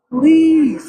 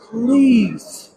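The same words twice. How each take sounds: First: Urgent plea. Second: Said in the usual way. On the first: Real, not acted. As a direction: beg harder on this please. Pleading with lawmakers, repeated plea.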